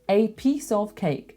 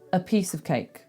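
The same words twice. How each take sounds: First: The words 'a' and 'of' are fully pronounced. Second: The words 'a' and 'of' are reduced to schwas. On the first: The speaker calls it wrong. "it sounds weird. It sounds overly careful" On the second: The speaker calls it right. "with the schwas"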